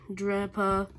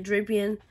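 First: "Drapa" broken off after two syllables; cut-off name. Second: "Drapion" said in full, DRAP-ee-on; corrected name. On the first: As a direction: stop short at "Drapa". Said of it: "I mean, Drapion". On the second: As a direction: finish it as "Drapion", three syllables. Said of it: "I mean". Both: Real, not acted.

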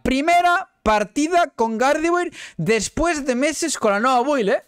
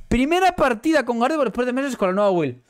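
First: High, slow drawn-out brag; proud boast. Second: Said in the usual way. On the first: Real, not acted. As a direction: stretch it out proudly. Boasting, repeated then plainer. (fanfarroneo lento y agudo)

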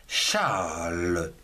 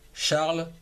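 First: Charles stretched long, sinking low; drawn-out word. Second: Said in the usual way. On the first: Shown as a demonstration. Teacher presenting the prénom Charles, drawn out. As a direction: draw out the vowel in Charles, low and slow.

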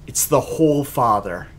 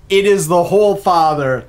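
First: Said in the usual way. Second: "is" punched, the whole line louder; emphatic "is", loud proclamation; stress on IS. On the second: Shown as a demonstration. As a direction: lean hard on "is" in "It is the Whole Father".

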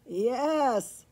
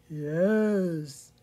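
First: Loud, lightly neighed reply; neighing horse. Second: Low, loud cow voice; storybook cow, deep moo. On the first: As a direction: answer with a hint of a horse's neigh. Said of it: "he neighed". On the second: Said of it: "she mooed". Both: A narrator's reading.

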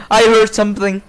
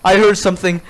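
No difference in how they are said.

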